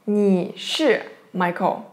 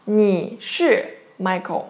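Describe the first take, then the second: First: Said in the usual way. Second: Each syllable slow and clear, leaning on 是; slow careful demo. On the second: Shown as a demonstration. Teacher to students, slowly modeling 你是Michael. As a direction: spell it out slowly for the class. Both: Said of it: "How to say that?".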